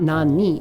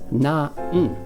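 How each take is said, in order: First: The word ends with a full 'ni' syllable. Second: The word ends with a bare 'n' sound. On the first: The speaker calls it wrong. "it's not na-ni" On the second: The speaker calls it right. "it's na-n"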